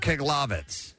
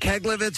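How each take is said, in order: First: The second syllable has the vowel of 'log'. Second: The second syllable has the vowel of 'leg'. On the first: The speaker calls it wrong. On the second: The speaker calls it right.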